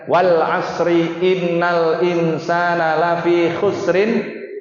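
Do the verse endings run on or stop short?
run on. Verse endings run on with added vowel endings. The speaker calls it wrong. "Biasanya dibaca dengan"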